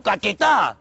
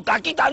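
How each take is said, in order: First: "caquetá" with an e, stressed on final tá; corrected pronunciation. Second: "caquita" said with an i in the middle; wrong pronunciation. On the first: Driver corrects the trainee with a slow "caquetá". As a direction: draw out "caquetá", landing slowly on the last syllable. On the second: Driver rejects trainee's "caquita", showing the mistake. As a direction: say "caquita", ending in -quita. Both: Shown as a demonstration. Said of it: "No, caquita no".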